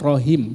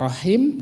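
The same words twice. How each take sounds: First: The h is a plain, light h sound. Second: The h is a strong breathy sound from the throat. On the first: A different letter changes the meaning. The speaker calls it wrong. "yang akan dibacakan rohim" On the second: This is the word the reciter intends. The speaker calls it right. "yang dituju adalah rohim"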